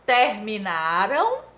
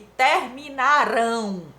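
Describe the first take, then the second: First: The stress falls on the second-to-last syllable. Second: The stress falls on the last syllable. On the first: The action happened in the past. "a sílaba tônica é a penúltima" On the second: The action will happen in the future. "a sílaba tônica é a última, rão"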